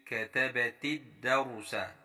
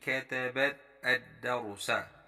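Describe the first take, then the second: First: The last two words are linked together. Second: The last two words are said separately. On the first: "kalau kita baca sambung" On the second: "Dia macam terputus begitu"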